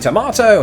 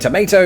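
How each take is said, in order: First: It is said with a British pronunciation. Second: It is said with an American pronunciation. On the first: This is how Brits say it. "you say tomato" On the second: This is how Americans say it. "they say tomato"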